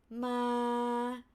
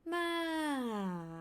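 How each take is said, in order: First: The pitch stays level in the middle. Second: The pitch falls from high to low. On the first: "flat tone" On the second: "falling from up to down"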